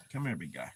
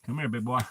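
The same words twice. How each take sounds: First: Softer, lower coaxing call; soft pet talk. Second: Said in the usual way. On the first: Real, not acted. Calling the puppy onto her lap, soft low coaxing. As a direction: coo him over gently.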